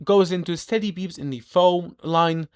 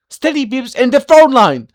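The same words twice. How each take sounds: First: Said in the usual way. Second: Alarmed echo, louder; louder outcry. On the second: Acted. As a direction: exclaim the phrase with alarm. Echoing the phrase as an outcry.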